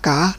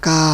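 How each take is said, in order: First: The syllable is said in the chattawa tone. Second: The syllable is said in the tri tone. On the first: "ไม่จัตวา" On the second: "ไมตรีกา ... เสียงขึ้น"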